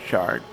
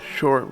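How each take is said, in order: First: The vowel sounds like 'ar'. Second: The vowel sounds like 'or'. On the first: "we'll say shark" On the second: "Instead of uh, short"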